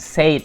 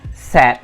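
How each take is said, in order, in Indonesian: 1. Vokalnya terdengar seperti vokal pada 'say'. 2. Vokalnya terdengar pendek, seperti 'sed'. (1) "bukan said ya" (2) "tapi kita bacanya said, said gitu. Jadi sama kayak misalkan kita pengen bilang sedih"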